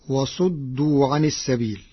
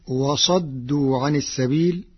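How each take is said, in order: First: وصدوا with damma on the ص, wa-suddu; first reading. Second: وصدوا with fatha on the ص, wa-saddu; Warsh reading with fatha. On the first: Teacher recites the common reading before Warsh's, sounding وصدوا as wa-suddu. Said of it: "قرأ ورش كلمة "وصدوا". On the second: Teacher demonstrates Warsh's reading, وصدوا said wa-saddu. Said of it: "بفتح الصاد". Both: Shown as a demonstration.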